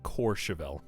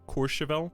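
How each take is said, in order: First: The first vowel sounds like 'or' in 'core'. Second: The first vowel is a rounded 'oo' sound. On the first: The speaker calls it wrong. "I think I said more like Courchevel. Like C O R E" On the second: The speaker calls it right. "With like a, like a whistling um, mouth shape, almost"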